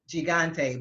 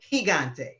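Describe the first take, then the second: First: The first sound is a hard g. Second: The first sound is like an h. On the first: The speaker calls it wrong. "one of your big entertainers was pronouncing it" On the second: The speaker calls it right. "but it's"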